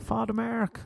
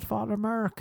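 First: "Merck" said more like "Mairk", with an open "e"; corrected name. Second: "Merck" said with an "ur" vowel, rhyming with "work"; mispronounced name. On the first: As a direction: correct it to "Merck" as an Irish "Mark", open vowel. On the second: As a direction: get the name wrong as "Merck", like "murk", pitched high. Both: Acted. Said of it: "It's Mark".

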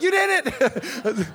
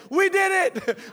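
First: "You" drawn out slowly and raised; corrected cheer for YOU. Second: "We" did it, pitched high in a retold cheer; mock triumphant WE. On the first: Retold or imitated. Husband correcting himself to wife, long high cheer on "You". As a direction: stretch "You" to hand over all the credit. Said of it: "But I didn't. I was like". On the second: Husband almost cheering at wife's finish, high and triumphant on "We". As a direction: cheer it high, claiming shared credit with "We". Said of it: "I almost said".

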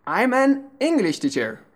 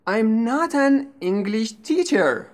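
First: "English" carries the stress, "teacher" falls. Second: "teacher" stressed after English. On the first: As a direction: hit English, keep teacher unstressed. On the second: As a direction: shift the weight onto teacher. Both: Shown as a demonstration. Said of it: "please pay attention to the stress".

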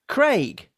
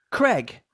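First: Craig rhyming with vague; British Craig. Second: Craig said short, like Creg; American Creg. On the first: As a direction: say Craig as crayg. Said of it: "the first version is correct". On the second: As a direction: flatten Craig to kreg. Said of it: "the second version is American". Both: Shown as a demonstration.

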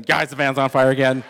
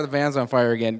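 First: Loud retold shout to friends; hollering a warning in a story; acted alarm call. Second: Said in the usual way. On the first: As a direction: call out the emergency, much louder.

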